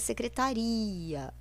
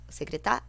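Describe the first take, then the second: First: The final i and a are separate syllables. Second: The final i and a form one syllable. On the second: "o ia é junto"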